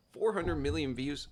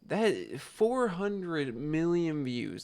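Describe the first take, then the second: First: Rising mock disbelief on four; incredulous question. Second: Very slow, each word weighed out; slow emphasis. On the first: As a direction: ask it like you can't believe the number. Incredulous echo of the figure. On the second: Real, not acted. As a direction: let the size of the number sink in slowly. Dwelling on the huge number.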